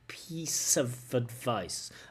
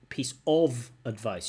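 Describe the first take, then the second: First: The word 'of' is reduced and linked to 'piece'. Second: The word 'of' is said in its full form. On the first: The speaker calls it right. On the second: The speaker calls it wrong.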